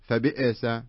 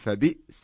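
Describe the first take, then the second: First: The glottal stop has a bouncing, echoing release. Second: The glottal stop is plain with no echoing release. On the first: The speaker calls it wrong. "لا تقول فبئس القلقلة في الهمزة" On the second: The speaker calls it right. "لا خلها فبئس مثوى"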